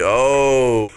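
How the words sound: It is said dramatically, with strong feeling.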